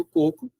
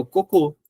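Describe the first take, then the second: First: Coco stressed on the first syllable; coco without accent. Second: Cocô stressed on the last syllable, closed ô; cocô with final stress. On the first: Teacher contrasting coco and cocô: stress on the first syllable. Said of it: "o coco sem acento". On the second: Teacher contrasting coco and cocô: final closed "cô". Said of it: "precisa ter acento". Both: Shown as a demonstration.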